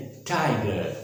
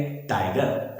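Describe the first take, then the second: First: टाइगर with a puffed t and silent final r; falling 'thai-guh'; correct TIGER. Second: टाइगर with an unaspirated t and sounded final r; plain t and clear r in टाइगर; wrong TIGER. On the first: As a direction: puff the t and let टाइगर fall to 'guh'. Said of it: "इस प्रकार से बोलेंगे". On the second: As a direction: say टाइगर the Hindi way, short 'tai-gar'. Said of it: "ऐसे नहीं". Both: Shown as a demonstration.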